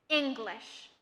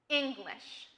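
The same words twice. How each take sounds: No difference in how they are said.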